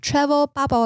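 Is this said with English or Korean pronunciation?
English. It is said with English pronunciation. "那这个就是我的英文发音"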